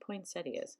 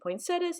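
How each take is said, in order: First: It ends in 'settia', with an 'ee' sound. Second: It ends in 'setta', with no 'ee' sound. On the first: This follows the spelling of the word. "it probably should be poinsettias" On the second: This is how people in the speaker's area say it. "In my area, we say poinsettias, even though there's an I in there"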